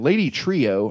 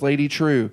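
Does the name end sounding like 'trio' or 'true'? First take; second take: trio; true. First: The name ends with two syllables, like 'trio'. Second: The name ends with one syllable, like 'true'. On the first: The speaker calls it wrong. "he mispronounces everything" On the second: The speaker calls it right. "Everyone says Lady True"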